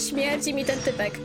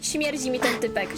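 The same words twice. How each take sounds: The two takes are said the same way.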